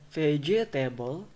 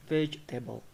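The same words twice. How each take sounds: First: Vegetable in four syllables, ve-ge-ta-ble; full syllables. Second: Vegetable in three syllables, vej-ta-ble; dropped syllable. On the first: Teacher showing the full form, vegetable unreduced. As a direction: sound every vowel in vegetable. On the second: Teacher showing what it becomes, vegetable as vej-ta-ble. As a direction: skip the middle e of vegetable. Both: Shown as a demonstration. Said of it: "becomes vegetable".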